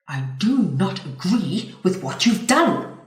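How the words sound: The voice sounds hostile and confrontational. "Whoa, aggressive"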